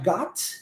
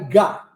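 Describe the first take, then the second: First: The final T sound is clearly pronounced. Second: The final T sound is swallowed. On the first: "eu posso pronunciar got" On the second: "simplesmente engulo esse T"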